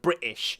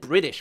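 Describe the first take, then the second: First: It is said in a British accent. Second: It is said in an American-sounding accent. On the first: "instead of British" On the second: "I've said British before"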